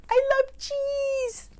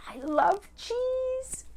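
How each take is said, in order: First: Very high, drawn-out wail; craving wolf. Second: High, drawn-out, softer croon; longing wolf. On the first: Wolf overcome by love of cheese, high slow wail. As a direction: squeal it slowly, overcome with craving. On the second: Wolf dreaming aloud of cheese, high slow longing. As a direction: savour each word slowly, up high. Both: Acted.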